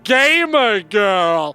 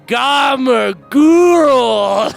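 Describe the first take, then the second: First: It is said with plain English vowels. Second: It has an 'a' as in cat and 'ooh'. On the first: The speaker calls it wrong. "you may see that and be like, oh, our avatar's named Gamer Girl. No!" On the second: The speaker calls it right. "It is an ah sound, like the A in cat. ... It's like an ooh, like in school"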